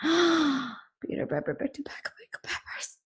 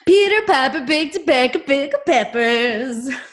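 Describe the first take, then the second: First: It sounds scared, like after seeing a ghost. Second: It sounds triumphant, like after closing a deal.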